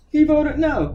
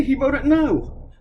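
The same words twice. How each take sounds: First: Said in the usual way. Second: "He voted no." dragged out very slowly; drawn-out, pointed "He voted no."; slow emphasis. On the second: Real, not acted. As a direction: spell out "He voted no." word by word, slowly. Ranting stress on the vote.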